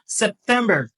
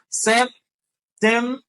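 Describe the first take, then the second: First: The word is said smoothly at normal speed. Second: The word is said slowly, syllable by syllable.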